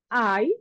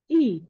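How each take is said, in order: First: The letter is said with its English name. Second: The letter is said with its Indonesian name.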